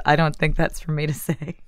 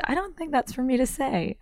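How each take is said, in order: First: Said in the usual way. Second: High, airy, coy imitation; coyly imitating David Sedaris; David Sedaris impression. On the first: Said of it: "Is that what you get". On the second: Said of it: "And he said".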